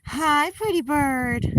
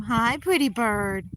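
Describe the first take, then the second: First: Slow, high, drawn-out pet greeting; cooing hello. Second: Slow, drawn-out sweet pet greeting; cooing hello. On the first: Owner greeting her bird, higher slow cooing pet voice. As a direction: stretch it out sweetly for the bird. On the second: Owner greeting her bird, slow cooing pet voice. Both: Real, not acted.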